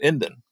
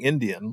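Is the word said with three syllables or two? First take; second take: two; three. First: The word is shortened to two syllables. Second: The word is said in full with three syllables. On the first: Native people use it among themselves. "you pronounce it Indan, like there's no A in the word" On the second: It refers to someone from India. "instead of saying Indian, like for someone from India"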